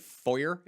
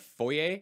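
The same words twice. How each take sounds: First: It is pronounced the American English way. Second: It is pronounced the French way. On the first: The speaker calls it wrong. "when Americans say foyer" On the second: The speaker calls it right. "instead of foyer"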